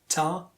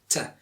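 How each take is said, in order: First: The syllable is said strongly and loudly. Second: The syllable is said weakly and softly.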